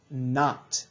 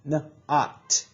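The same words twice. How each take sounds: First: Said in the usual way. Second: "N-ot" split into its two sounds; sounded out. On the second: Shown as a demonstration. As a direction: stretch "N-ot" apart, sound by sound, for the class. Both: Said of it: "the O is gonna say ah".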